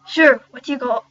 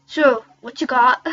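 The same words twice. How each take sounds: First: Put-on loud first stab at an Irish accent; rough put-on Irish accent; shaky Irish accent. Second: Put-on slower, deliberate Irish accent; drawn-out, loud put-on Irish; Irish accent retry. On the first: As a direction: attempt Irish, not quite landing it. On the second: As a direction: work harder at the Irish accent. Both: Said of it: "I have to solve this accent".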